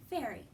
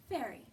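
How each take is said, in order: Both takes have the same delivery.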